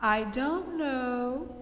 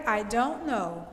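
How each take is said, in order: First: "I don't know" stretched slowly, softly, lifting at the end; drawn-out emphasis. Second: "I don't know" stated softly with a falling end; emphasis on "I don't know". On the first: Teacher repeating the key idea to students, "I don't know" slowly drawn out. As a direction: dwell on each word of "I don't know", tune left hanging upward. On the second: Teacher stressing the key idea to students, "I don't know" emphasised with a fall. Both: Shown as a demonstration. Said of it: "Emphasis on the idea".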